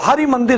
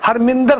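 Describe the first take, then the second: First: The vowel after 'Har' is kept as a separate syllable. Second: The vowel after 'Har' is dropped, merging the words. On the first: The speaker calls it right. "हरमिंदर नहीं है, वो हरि मंदिर है उसका नाम" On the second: The speaker calls it wrong. "Punjabi उच्चारण की गलती है"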